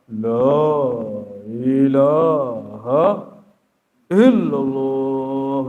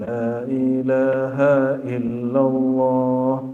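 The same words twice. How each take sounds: First: It is said loudly and forcefully. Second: It is said quietly and gently.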